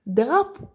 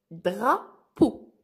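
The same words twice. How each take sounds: First: Said in the usual way. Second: "Drapeau" slowly split in two, with a clear pause between Dra and peau; syllable by syllable. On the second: Shown as a demonstration. Teacher splits word into syllables.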